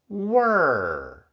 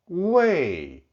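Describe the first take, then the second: First: The syllable ends with an r-colored sound. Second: The syllable ends without an r-colored sound. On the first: "the pronunciation with the retroflex final" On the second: "the original pronunciation of the word without the retroflex final"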